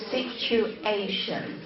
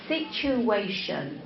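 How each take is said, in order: First: "situation" broken as "sitchu, ay-shun"; unlinked sounds. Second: "situation" with a w-glide, "sitchu-way-shun"; connected sounds. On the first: Teacher showing what to avoid, sounds unlinked. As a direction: separate "situ" from "ation", no glide. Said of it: "instead of situation". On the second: Teacher showing students linked sounds, glided "situation". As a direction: link "situ" into "ation" with a w. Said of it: "instead of". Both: Shown as a demonstration.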